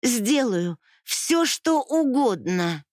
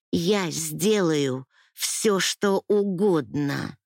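First: Slow, higher, pleading promise; a high drawn-out vow in tears; desperate plea. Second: Very slow, hollow repeat of the vow; a slow, emptied-out promise; numb repeat. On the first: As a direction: stretch it out, begging. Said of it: "продолжала я". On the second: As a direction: say it slowly, drained, pressed to the wall. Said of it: "повторила я". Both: Acted.

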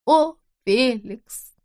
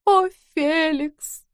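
First: Протяжно, медленно и выше, с надрывом; тяни «О, Феликс!» как стон отчаяния; отчаянный зов. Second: Медленно, высоко и протяжно; тяни имя, словно в забытьи; бездумный стон. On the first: Женщина в бреду зовёт мужа. (женщина в бреду зовёт мужа: протяжный стон) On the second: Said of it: "бездумно повторяла". (вдова в забытьи зовёт мужа: протяжный стон) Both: Acted.

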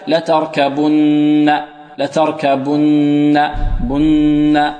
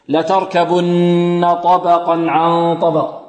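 First: Faulty لتركبن, lips shut during the long n; إلصاق الشفتين في النون. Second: Long n in لتركبن with lips parted, tongue tip sounding it; إفراج الشفتين. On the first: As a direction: demonstrate the error: close the lips on the nn of لتركبن. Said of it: "البعض يلصق شفتيه في النون". (غنة لتركبن بإطباق الشفتين خطأً) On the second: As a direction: recite لتركبن slowly, lips open on the hum. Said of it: "لابد من إفراج ماذا؟". (غنة لتركبن بشفتين منفرجتين) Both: Shown as a demonstration.

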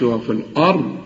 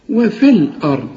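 First: وفي الأرض with a break before a heavy أرض; wrong reading. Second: وفي الأرض run together, the ya dropped into the lam; linked reading. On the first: Teacher imitates the student's wrong separated reading. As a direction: split وفي from الأرض, the mistake. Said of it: "لكن ما تقولش". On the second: Teacher recites the correct joined reading. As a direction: join وفي to الأرض in one flow. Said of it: "بشبك الف مع اللام". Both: Shown as a demonstration.

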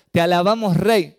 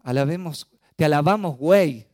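First: Louder, higher, stressing rey; proud correct version; corrected lyric. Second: Mock misheard lyric. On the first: Retold or imitated. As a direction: sing out te alabamos rey clearly. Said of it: "No, no dijo eso, dijo".

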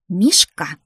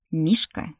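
First: Loud, sharp grandmotherly rebuke; scolding. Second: Brother's understated call on entering; mildly raised hail to a little girl. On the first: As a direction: call out the name as a telling-off. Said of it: "ругнулась бабуля". (ругаясь, громко одёргивая) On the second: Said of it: "закричал входящий в комнату брат". (сдержанный оклик) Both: A narrator's reading.

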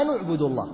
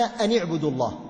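First: أن vowelled with damma before اعبدوا; أن read as "anu" into اعبدوا; other reading shown. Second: أن vowelled with kasra before اعبدوا; أن read as "ani" into اعبدوا; one reading shown. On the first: Teacher reciting the second reading, أن with damma. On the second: Teacher reciting the first reading, أن with kasra. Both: Shown as a demonstration. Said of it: "وفي قراءة".

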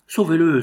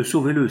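First: Loud pleading cry, pitched up; crowd crying out. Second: Echoed plea, a little less loud; crowd crying out. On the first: Bystanders cry out to the prince for the boy, loud pleading. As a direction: beg loudly for his life. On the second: Bystanders repeat their plea to the prince, urgent. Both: A narrator's reading. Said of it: "s'écrièrent les assistants".

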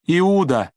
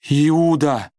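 First: "Иуда!" cried out much higher and louder, then falling; desperate high cry. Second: Sudden shocked cry of a name. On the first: Judith cries her dead brother's name again, horrified scream. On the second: Judith finds her brother dead, shocked cry. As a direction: cry out "Иуда!" higher and louder, falling at the end. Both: A narrator's reading. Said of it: "закричала она потрясённо".

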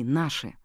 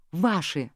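First: Said in the usual way. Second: Mimicking his word with scorn; secretary mimicking Roman's word; mocking mimic. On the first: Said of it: "И они были свои". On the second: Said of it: "передразнила секретарша".

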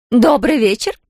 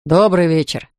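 First: Sing-song greeting. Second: Said in the usual way. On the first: A narrator's reading. Kerensa greets the Americans, sing-song and higher. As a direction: lilt it out to charm them. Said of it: "пропела она". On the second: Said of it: "поприветствовал девушек Хакл".

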